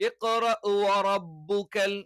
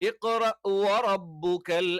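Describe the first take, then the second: Both takes have the same delivery.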